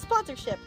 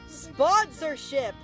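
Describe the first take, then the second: First: The word is said at a normal length. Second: The word is stretched out and drawn long.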